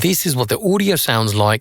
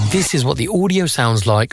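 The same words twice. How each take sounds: First: The voice has its low frequencies cut away. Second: The voice keeps its full low frequencies. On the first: "with the low-cut filter at one hundred sixty hertz" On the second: "without any filters engaged"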